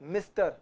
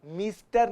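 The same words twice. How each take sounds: First: "मिस्टर" as mis-ter; correct short vowel. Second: "मिस्टर" said as mees-ter; wrong long vowel. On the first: Teacher explaining vowel marks, short-i pronunciation. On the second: Teacher showing what not to say, long-vowel mispronunciation. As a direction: stretch the i of "मिस्टर" to ee. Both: Shown as a demonstration. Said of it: "छोटी ई की मात्रा है".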